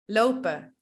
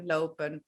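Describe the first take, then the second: First: The ending drops the n, ending in a vowel. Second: The ending is said with a clear final n. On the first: "we don't pronounce the N" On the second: "if the N is pronounced, we also find it normal"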